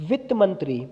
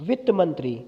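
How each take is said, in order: Both takes have the same delivery.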